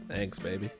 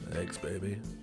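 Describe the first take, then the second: First: It is said in an ordinary speaking voice. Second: It is said in a deep, rough morning voice.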